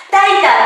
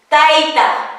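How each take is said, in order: First: Said in the usual way. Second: "Taita" ending in a throaty Q; final Q sounded. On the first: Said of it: "termina en vocal". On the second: Shown as a demonstration. Teacher models the genitive, "Taita" with final Q sounded. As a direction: close "Taita" with a back-of-throat Q.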